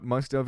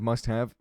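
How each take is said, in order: First: "have" reduced to "of", with no h; misspelled "must of". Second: "have" with a clear h and full vowel; full "must have". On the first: Streamer quotes manager's spelling mistake, "have" sounding like "of". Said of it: "just wrote "must have" instead of". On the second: Streamer corrects manager's mistake, "have" fully pronounced with its h. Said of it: "instead of "must have". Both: Shown as a demonstration.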